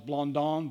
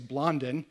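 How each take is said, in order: First: The name is said the French way. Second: The name is said the American way.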